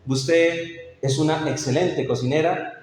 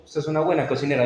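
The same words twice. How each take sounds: First: Heartfelt compliment, said like you mean it; a husband sincerely praising his wife's cooking; sincere praise. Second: Fast, reluctant compliment; a husband grudgingly praising his wife's cooking. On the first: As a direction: praise her cooking with real feeling. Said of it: "y se lo digo con sentido". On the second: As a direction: toss it off unwillingly, without heart. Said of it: "de mala gana". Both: Shown as a demonstration.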